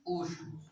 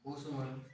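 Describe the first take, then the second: First: ऊष्म said slowly and drawn out as the new term; name the term ऊष्म clearly for the class; term announced. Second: ऊष्म repeated lower and softer for the class to copy. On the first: Teacher introducing the term to students, slow and clear. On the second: Teacher repeating the term for students, softer. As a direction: echo ऊष्म gently so the class can write it down. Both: Shown as a demonstration. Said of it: "और तीसरा है".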